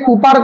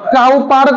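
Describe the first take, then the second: First: The first vowel sounds like 'oo'. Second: The first vowel sounds like 'ow'. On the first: "এটাকে কুপার করা যায়" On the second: "আরো সব থেকে ভালো হয় উইলিয়াম কাউপার"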